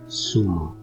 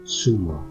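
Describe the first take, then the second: First: The first consonant sounds like English s. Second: The same.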